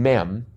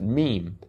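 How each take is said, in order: First: The vowel is short, rhyming with them. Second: The vowel is long, rhyming with team. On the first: The speaker calls it wrong. "I'd always been saying mem. Because I figured it was short for memory" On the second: The speaker calls it right. "I now know to pronounce it meme"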